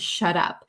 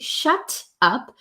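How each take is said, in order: First: The T is a quick, soft D-like tap. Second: The T is a crisp, fully released T sound. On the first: "sounds like a soft D sound" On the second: "as a proper true T"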